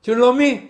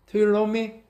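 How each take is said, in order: First: "Do you love me?" higher and louder, demanding; preacher voicing Jesus, high and pressing; Jesus asking for agape. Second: "Do you love me?" milder, barely raised; Jesus asking for philo. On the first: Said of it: "아가페로". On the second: Retold or imitated. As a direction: ask it gently, lowering the bar. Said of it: "필로에로 물어봐요".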